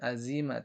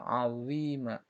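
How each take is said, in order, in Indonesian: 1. Huruf tengah adalah bunyi z biasa. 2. Huruf tengah bukan z biasa. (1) "bukan za, bukan azima" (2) "tapi azima"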